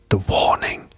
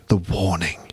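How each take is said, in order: First: It is said in a whisper. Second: It is said in a normal voice.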